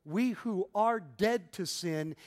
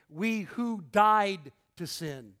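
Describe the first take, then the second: First: "are dead" set out slowly and evenly; stress on DEAD. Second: "died" punched loud and drawn out; slow down and hit "died"; stress on DIED. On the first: Preacher contrasting two readings of a verse, stress on "are dead". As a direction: weigh "are dead" as a state. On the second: Preacher correcting the reading of the verse, strong stress on "died". Contrasts two wordings of the verse. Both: Shown as a demonstration.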